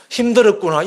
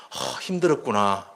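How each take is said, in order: First: Louder, higher caring reply; empathetic reply. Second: Soft, lower, slow echo of the feeling; empathetic echo. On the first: Mother answering her tired student, caring and louder. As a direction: say it out so the child feels heard. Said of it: "이 말 한마디에". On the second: Listener echoing a friend's hurt, soft and slow. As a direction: gently give the words back. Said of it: "그 사람이 끝말을 반복하라". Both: Shown as a demonstration.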